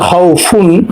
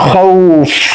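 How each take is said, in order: First: The word ends with the full '-un' syllable. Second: The word stops on the final consonant. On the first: "এখানে শব্দটা হচ্ছে হাউ ফুন" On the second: "সেটা উচ্চারণ জজম হয়ে যাবে"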